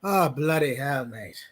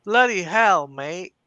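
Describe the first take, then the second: First: Fake British accent. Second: A loud British exclamation, rough and hearty; Constantine British accent. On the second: Pretend. Asked to do Constantine, a loud British bloody hell. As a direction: play Constantine in your native British accent. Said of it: "Do your Constantine".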